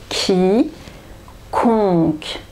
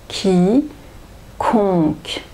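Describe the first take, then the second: Both takes have the same delivery.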